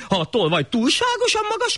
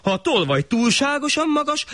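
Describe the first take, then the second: First: Very high pompous shah voice; the shah lecturing his servants; high haughty ruler; irritated shah. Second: High pleading suggestion; the poor man reasoning with the shah; high earnest proposal; clever poor man. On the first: Shah gives absurd order. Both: Acted.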